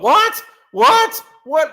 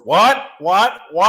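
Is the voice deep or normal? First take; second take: normal; deep. First: It is said in a normal voice. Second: It is said in a deeper voice. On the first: "As as you call it" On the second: "except in a deeper voice"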